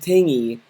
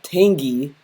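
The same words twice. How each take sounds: First: The G sound is weak, barely pronounced. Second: The G sound is strong and clearly pronounced. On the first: The speaker calls it right. "the G should not be, shouldn't have any emphasis" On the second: The speaker calls it wrong. "Not tangy"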